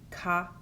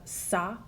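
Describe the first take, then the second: First: The C is said like a K. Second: The C is said like an S. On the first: The speaker calls it wrong. "if they didn't have the accent mark, it would be" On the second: The speaker calls it right. "with the cedilla, you have"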